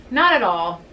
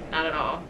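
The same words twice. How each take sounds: First: Said in the usual way. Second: Much softer, half to herself; soft, inward repeat; quiet. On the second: Real, not acted. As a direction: let it drop away under your breath.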